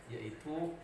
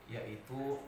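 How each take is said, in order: The two takes are said the same way.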